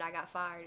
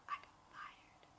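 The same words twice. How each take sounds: First: Said in the usual way. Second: Breathy whisper, almost no voice. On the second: Retold or imitated. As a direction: whisper the news to a friend at work. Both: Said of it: "Like, I whispered".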